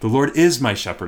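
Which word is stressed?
is. The stress falls on the word is. It is certain that he is the shepherd. "I can be certain of it. I can be confident"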